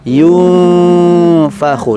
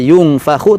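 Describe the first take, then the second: First: The nasal sound is held for two counts. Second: The nasal sound is cut short. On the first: The speaker calls it right. "dengungnya di ditahan selama dua harokat" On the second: The speaker calls it wrong.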